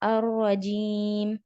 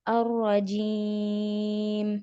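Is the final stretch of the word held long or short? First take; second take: short; long. First: The ending is stretched for a short time. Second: The ending is stretched for a longer time. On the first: "टू" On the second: "फोर"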